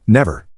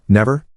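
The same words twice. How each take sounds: First: "Never." said with a settled falling tune; a reassuring "Never." falling flat to rest; firm falling tune. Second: "Never?" asked with a rising tune; a child's doubtful "Never?" rising up; questioning tune. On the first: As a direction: close "Never." down firmly. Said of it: "I said". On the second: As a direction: lift the end of "Never?" in doubt. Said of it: "Mindy said". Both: Retold or imitated.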